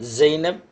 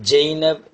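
First: It starts with a buzzing Arabic z sound. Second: It starts with a Tamil-style sound, not z. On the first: "அரபியில் வழக்கம் போல்" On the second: "தமிழில் சொல்லப்போனால்"

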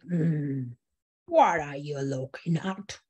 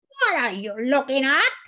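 First: The voice is low and growly. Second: The voice is high and squeaky.

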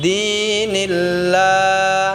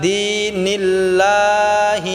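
The two takes are said the same way.

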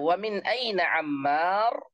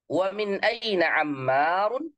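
First: The last word ends on a bare consonant. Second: The last word ends with a full '-un' ending.

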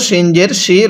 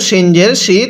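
The two takes are said the same way.

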